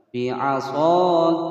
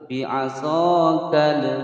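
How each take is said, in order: First: The final l is said cleanly without a bounce. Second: The final l is said with an echoing bounce. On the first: The speaker calls it right. "kal, jelas ya, tidak boleh pantul" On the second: The speaker calls it wrong. "itu namanya tawalud atau memantulkan"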